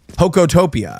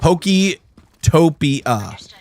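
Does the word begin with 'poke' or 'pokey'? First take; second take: poke; pokey. First: The first part is a plain 'poke' without ee. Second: The first part sounds like 'pokey', ending in ee. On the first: The speaker calls it right. "I think that's the way you actually pronounce it" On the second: The speaker calls it wrong. "But there's no E"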